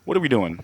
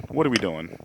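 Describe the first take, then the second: First: Mock whisper. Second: Said in the usual way. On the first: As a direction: whisper it back at him. Mocking the whisper back.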